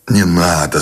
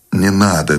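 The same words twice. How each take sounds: First: Gently soothing. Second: Unraised, mildly uninterested refusal; indifferent. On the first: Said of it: "Он говорил тихо, с сочувственной добротой в голосе". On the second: Husband turning down food from his wife, indifferent. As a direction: brush it off with no interest. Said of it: "безразлично сказал Сущеня". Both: A narrator's reading.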